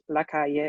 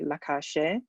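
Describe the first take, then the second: First: The double L is said without a sh sound. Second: The double L is said with a sh sound. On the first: This is the usual way in most Spanish-speaking countries. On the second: This marks the speaker as from Argentina or Uruguay.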